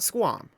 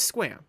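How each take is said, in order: First: The vowel does not sound like Sam. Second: The vowel sounds like the one in Sam. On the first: The speaker calls it wrong. "It's not Squam" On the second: The speaker calls it right. "It's like Sam, but with a qua in it"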